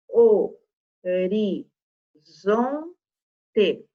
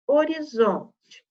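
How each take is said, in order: First: "O, ri, zon, te" com pausa entre as sílabas; separando sílabas. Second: Said in the usual way. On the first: Shown as a demonstration. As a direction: diga "O... ri... zon... te", cada sílaba isolada. ("O, ri, zon, te" silabado devagar) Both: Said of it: "Se eu separar sílabas".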